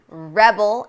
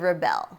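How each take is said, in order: First: The stress is on the first syllable. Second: The stress is on the second syllable. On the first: It is a noun: a person who goes against authority. "A rebel is someone who goes against authority or norms" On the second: It is a verb: to go against something. "To rebel means to go against something"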